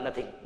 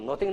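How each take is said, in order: First: The first vowel sounds like the 'u' in 'nut'. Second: The first vowel sounds like the 'o' in 'no'. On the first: The speaker calls it right. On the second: The speaker calls it wrong. "नोथिंग नहीं होता"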